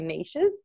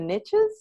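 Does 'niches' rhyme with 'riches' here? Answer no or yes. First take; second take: no; yes. First: Niches is said without rhyming with riches. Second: Niches is said to rhyme with riches. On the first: "with our Australian accents because we say niches" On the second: "the Americans say that the riches are in the niches"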